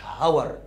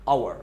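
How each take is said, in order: First: هاور with a clear h at the start; the mistaken h-pronunciation; wrong h sound. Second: اور starting straight on the vowel, no h; silent h. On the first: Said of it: "ما قلتش هاور". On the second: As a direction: say اور with the h dropped. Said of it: "ال اتش دي ما اتنطقتش". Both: Shown as a demonstration.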